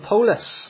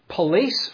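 First: It is said with Glaswegian pronunciation. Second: It is said with standard English pronunciation. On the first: "if you came from Glasgow, you would actually pronounce it in the Greek way" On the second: "the word that we get police from"

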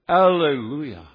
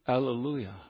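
First: The word is said at a louder volume. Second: The word is said at a softer volume. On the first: The speaker calls it right. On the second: The speaker calls it wrong.

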